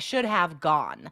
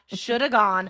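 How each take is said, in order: First: The word have is said fully and clearly. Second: The word have is reduced to a weak 'a'. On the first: "the correct usage would be I should have gone sooner" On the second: "how do we say that when we're speaking quickly?"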